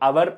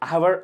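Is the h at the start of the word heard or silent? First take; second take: silent; heard. First: The word starts with a vowel, no h sound. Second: The word starts with an audible h sound. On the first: The speaker calls it right. "శబ్దంతో అవర్ అంటున్నాం" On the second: The speaker calls it wrong. "అవర్ అనట్లేదు"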